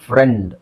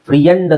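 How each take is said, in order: First: Only a short e-sound is heard after the r. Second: An extra ee-sound is heard after the r. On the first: The speaker calls it right. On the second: The speaker calls it wrong. "ಫ್ರಿಯಂಡ್ ಅಂತ ಹೇಳಲ್ಲ"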